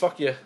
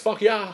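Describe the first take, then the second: First: The last word is a short, clipped 'ya'. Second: The last word is a longer, open 'yeah'. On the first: This is how a Canadian would say it. "If they're Canadian, it's fuck ya" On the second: This is how a Californian would say it. "If they're from California, it's fuck yeah"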